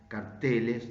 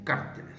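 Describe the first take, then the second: First: The stress is on the second syllable. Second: The stress is on the first syllable. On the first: This is the older form used in Spanish. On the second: This is the form copied from English speakers. "dicen cárteles"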